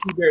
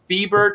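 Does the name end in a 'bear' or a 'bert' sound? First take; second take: bear; bert. First: The name ends in a 'bear' sound. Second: The name ends in a 'bert' sound. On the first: The speaker calls it wrong. "it wasn't T Bear" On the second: The speaker calls it right. "It was like Thiebert"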